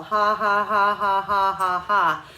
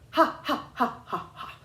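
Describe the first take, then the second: First: Loud, steady mock ha ha ha laugh; connected mock laugh, no breaks; sarcastic laugh. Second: High, choppy laugh with gaps between each ha; separated giggling ha ha; broken-up laugh. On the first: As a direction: laugh sarcastically but keep blowing. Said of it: "the laughing sarcastically idea works". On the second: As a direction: break between each ha on purpose. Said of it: "you would never go". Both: Shown as a demonstration.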